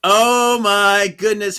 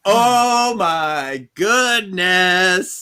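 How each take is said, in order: First: Loud, high gasp; dramatic exclaim. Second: Slow, loud, high exclaim; mock gasp. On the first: Host repeating the shocked cry, loud. Second reaction. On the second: Host reacting to the cliffhanger, slow and loud. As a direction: draw it out in shock. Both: Real, not acted.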